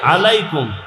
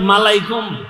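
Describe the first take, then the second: First: The word begins with a vowel sound. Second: The word begins with an m sound. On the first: The speaker calls it right. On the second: The speaker calls it wrong.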